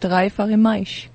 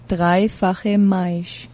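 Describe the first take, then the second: First: It is said at normal speed. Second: It is said slowly.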